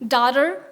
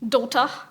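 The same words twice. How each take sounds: First: It is said with an American English accent. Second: It is said with a British English accent. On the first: "the American pronunciation would probably be" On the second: "Give it to someone in Britain, and the pronunciation would be"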